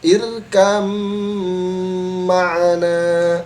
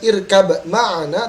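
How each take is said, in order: First: The b merges into a long nasal m. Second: A separate b sound is heard before the m. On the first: The speaker calls it right. "tetapi irkam ma'ana" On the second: The speaker calls it wrong. "Maka dibaca bukan irkab ma'ana"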